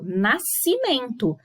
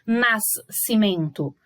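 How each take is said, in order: First: "Nascimento" devagar e ligado, SC como um só C; SC com som único. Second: "nascimento" partido em NAS, pausa, CIMENTO, com os dois sons; pronúncia errada separada. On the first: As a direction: diga "Nascimento" sem repetir o S. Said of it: "são duas letras com um som". ("Nascimento" pausado, um único som de S em "sci") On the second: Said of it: "A gente não fala nascimento". ("nascimento" errado, S e C ouvidos separadamente) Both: Shown as a demonstration.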